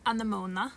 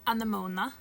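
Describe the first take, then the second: First: The word is said the Norwegian way. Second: The same.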